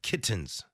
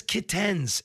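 First: Said in the usual way. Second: Kittens as "kit-TENS"; commercial's mispronunciation. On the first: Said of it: "instead of kittens". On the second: Retold or imitated. Host showing how ad says it, kit-TENS. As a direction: lean on a full TEN in "kittens". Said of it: "she says kittens instead of kittens".

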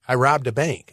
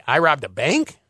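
First: "robbed" punched, falling at the end; stress on robbed. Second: "bank" stressed with a questioning rise; rising on bank. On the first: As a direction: hit the word "robbed" and let it drop. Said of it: "depending on how you say it". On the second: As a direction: lift "bank" up like a doubtful question. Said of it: "the inflection in your voice". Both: Shown as a demonstration.

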